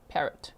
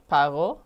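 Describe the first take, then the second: First: The name is pronounced the local Texan way. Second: The name is pronounced the French way. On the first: "they're saying it locally as" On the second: "In France, like French"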